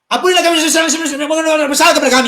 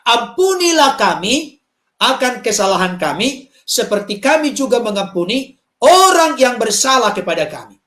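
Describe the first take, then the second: First: It is said fast, with words swallowed together. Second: It is said slowly, with every word distinct. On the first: The speaker calls it wrong. "Jangan seperti kaset zaman dulu yang telingsut" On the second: The speaker calls it right.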